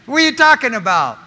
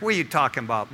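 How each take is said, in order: First: High, loud, quick objection; loud incredulity. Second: Lower, softer doubting question; low-key disbelief. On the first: Imagined churchgoer challenging the preacher, loudly incredulous. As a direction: throw the question out in raised-voice disbelief. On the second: Imagined churchgoer doubting preacher Rick, subdued disbelieving tone. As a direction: question it under your voice, unconvinced. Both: Acted.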